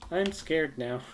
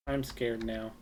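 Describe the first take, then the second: First: Louder, higher, mock fright; louder scared. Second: Said in the usual way. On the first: Real, not acted. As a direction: say it again with louder alarm.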